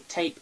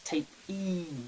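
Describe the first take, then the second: First: The word ends on the p sound. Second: The word ends with an added ee sound. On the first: "As opposed to tape" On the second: "it makes it sound like, you know, e"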